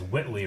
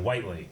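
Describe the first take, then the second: First: The first syllable sounds like 'wit'. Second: The first syllable sounds like 'white'. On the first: The speaker calls it wrong. "people always have read it as Whitley" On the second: The speaker calls it right. "rather than Whiteley"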